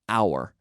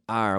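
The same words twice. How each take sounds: First: The word is said slowly in its full form. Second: The word is said quickly in a shortened form. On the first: "which is really our" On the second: "We often say our"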